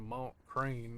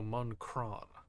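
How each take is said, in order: First: The name ends in an English-like 'crain' sound. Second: The name ends in a nasal French-like vowel. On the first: The speaker calls it wrong. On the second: The speaker calls it right.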